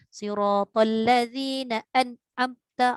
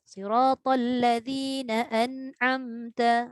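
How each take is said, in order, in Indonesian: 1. Bunyi n sama sekali tidak ada dengung hidung. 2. Bunyi n memiliki sedikit dengung hidung yang santai. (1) "kalau kita baca tak ada gunah langsung ... Kerah bunyi dia, tak sedap" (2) "jadi baca tu relax je"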